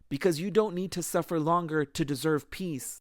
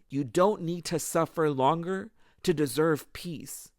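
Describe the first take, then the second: First: It is said at a normal pace. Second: It is said slowly and deliberately.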